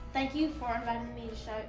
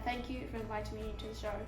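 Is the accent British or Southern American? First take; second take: Southern American; British. First: It is spoken in a Southern American accent. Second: It is spoken in a British accent. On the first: "Do a southern"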